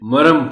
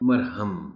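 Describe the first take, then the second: First: The middle h sound is dropped. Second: The middle h sound is pronounced. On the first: The speaker calls it wrong. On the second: The speaker calls it right.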